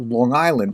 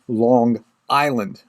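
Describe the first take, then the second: First: The two words run together as one word. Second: The two words are said apart, each distinct. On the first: The speaker calls it right. "like almost like it's one word" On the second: The speaker calls it wrong. "not Long Island"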